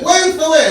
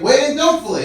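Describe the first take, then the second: First: Put-on high, loud Arabic-accented retort; escalated mock-accent insistence; exasperated shopkeeper. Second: Raised, louder insistence, DON'T punched; high, emphatic retort stressing "don't"; arguing back. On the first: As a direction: imitate a shopkeeper shouting down an argument. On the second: Retold or imitated. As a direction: argue back, leaning hard on "don't". Teller argues back, escalating.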